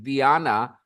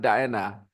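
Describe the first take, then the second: First: The name is said the Ukrainian way. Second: The name is said the usual English way. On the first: This is how the name's owner says it. The speaker calls it right. "she pronounces it, pronounces it as Diana" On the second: This is how English speakers say it. The speaker calls it wrong. "not Diana"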